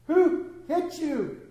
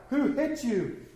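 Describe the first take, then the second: First: High, slow, drawn-out jeer; mocking taunt. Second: A lightly voiced taunt; mocking. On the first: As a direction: stretch the taunt out cruelly. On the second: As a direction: tease the blindfolded prisoner. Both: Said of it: "began mocking".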